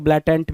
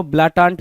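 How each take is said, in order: First: ब्लाटेंट with an "e" sound in the second syllable; variant pronunciation. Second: ब्लाटांट with a long open "aa" in the second syllable; variant pronunciation. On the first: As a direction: say ब्लाटेंट as blaa-TENT. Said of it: "कुछ लोग ब्लाटेंट भी पढ़ेंगे". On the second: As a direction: say ब्लाटांट as blaa-TAANT. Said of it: "कुछ लोग इसको ब्लाटांट भी पढ़ेंगे". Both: Shown as a demonstration.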